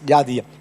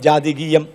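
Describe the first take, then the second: First: The word is said with three syllables. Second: The word has an extra syllable, four in all. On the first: It means relating to the gentiles. The speaker calls it right. "അതിനേക്കാൾ better ഉച്ചാരണം ജാതീയം എന്നതാ" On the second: It could be read as relating to horoscopes. The speaker calls it wrong. "ഞാൻ പലപ്പോഴും പറഞ്ഞപ്പോഴേ ജാതികീയം ജാതികീയം എന്ന പദമാണ് ഉപയോഗിച്ചത്"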